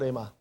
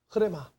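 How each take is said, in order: First: The word starts directly with an r sound. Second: The word starts with a breathy h sound. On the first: The speaker calls it wrong. "그 레마는 정확한 발음이 아니고" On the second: The speaker calls it right. "뭐라고요? 흐레마"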